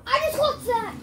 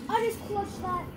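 First: High, loud victory yell; excited shout. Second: Excited. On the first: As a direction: shout it out in triumph. Just won a tight fight. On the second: Repeats the boast, calmer. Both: Real, not acted.

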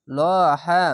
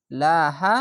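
First: লহা with a thick, full ল; heavy lam. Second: লাহা with a thin, light ল; light lam. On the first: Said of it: "আল্লাহ লেখাটি মোটা করা হবে". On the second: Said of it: "যদি নিচে আসে তাহলে পাতলা করা হবে". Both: Shown as a demonstration.

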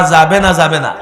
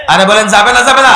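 First: Said in the usual way. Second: Fast, high, loud question; insistent demand. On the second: Real, not acted. Preacher pressing the crowd to answer him, loud insistent demand. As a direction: fire it at the crowd to force an answer.

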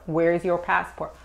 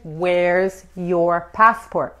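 First: Said in the usual way. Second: Very slow, drawn-out "Where's your passport?"; slow model phrase. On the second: Shown as a demonstration. Teacher modelling the question for Spanish speakers, very slow and deliberate. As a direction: stretch each word of "Where's your passport?" for learners.

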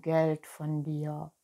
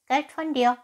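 First: Said in the usual way. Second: High, loud cat echo; hissing cat. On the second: Acted. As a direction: throw it back as a high, hissy cat. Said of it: "zischte die Katze".

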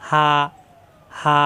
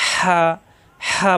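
First: হা from the bottom of the throat, mouth wide open; plain open h on হা, no squeeze; open round ha. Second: হা squeezed from mid-throat with rasping air; pressed throat ha. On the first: Teacher showing the round ha, হা open from the throat's start. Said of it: "কণ্ঠনালীর শুরু থেকে মুখ খোলা থাকবে". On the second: Teacher contrasting the two h letters, হা pressed and breathy from mid-throat. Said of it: "কণ্ঠনালীর মাঝখানে চাপ দিয়ে". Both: Shown as a demonstration.

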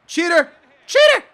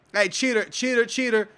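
First: High, loud outburst; accusing yell. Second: Said in the usual way. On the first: Real, not acted. Gamer calls opponent a cheater, escalating yell. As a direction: shout it, jumping higher the second time.

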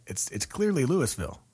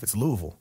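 First: Louisville with the S sounded, LOO-iss-ville; mistaken spelling pronunciation. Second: Louisville squashed to LOO-vull; local pronunciation. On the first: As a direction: insist on the S in Louisville. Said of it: "there's an S in it". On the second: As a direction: lifelong local's Louisville, vowels swallowed. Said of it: "I've been here all my life". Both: Acted.

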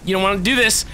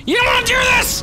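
First: Firm warning at the usual pitch; taunting warning. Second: Very high, loud taunting scream; shrieked warning. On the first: Gamer warning enemies off, firm taunt. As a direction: warn them off without screaming yet. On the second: Gamer warning enemies off, shrieking taunt. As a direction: scream the warning at full height. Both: Real, not acted.

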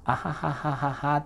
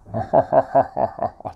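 First: Light demonstrated "ahahaha", little resonance; ordinary Japanese-style laugh. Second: Loud, booming demonstrated laugh in separate bursts; resonant laugh. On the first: Coach contrasts laughs without inner resonance, light mock "ahahaha". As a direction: fake a plain, shallow chuckle. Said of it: "っていうより". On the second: Coach shows English-style resonance inside, loud ringing mock laugh. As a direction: let each "ha" resound inside the mouth. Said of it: "この中で響く感じ". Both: Shown as a demonstration.

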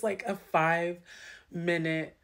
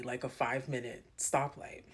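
First: Slow, louder stretch on like a five-minute; drawn-out emphasis. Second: Said in the usual way. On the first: Acted. Telling a friend how endless the light felt, drawn out. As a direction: lean into like, a five-minute to show how long.

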